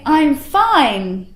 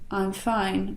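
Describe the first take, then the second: First: The voice is lively and sends energy outward. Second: The voice is flat and held in. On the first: The speaker really is fine. The speaker calls it right. "it's like I'm giving off my emotion in all directions" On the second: The speaker seems upset or annoyed. The speaker calls it wrong. "Instead of, ... where I'm holding it in"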